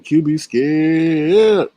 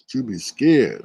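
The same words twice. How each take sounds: First: Drawn-out taunt. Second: Said in the usual way. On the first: Shown as a demonstration.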